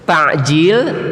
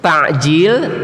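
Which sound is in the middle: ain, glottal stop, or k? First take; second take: ain; ain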